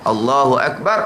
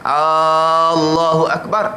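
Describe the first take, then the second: First: The first vowel of Allahu is short. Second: The first vowel of Allahu is long. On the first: A statement that God is great. The speaker calls it right. "Allah Maha Besar" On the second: A question asking whether God is great. The speaker calls it wrong. "adakah Allah Maha Besar? Terbit hamzah istifham"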